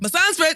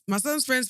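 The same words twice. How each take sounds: First: It is shouted loudly and theatrically. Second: It is said at a normal volume.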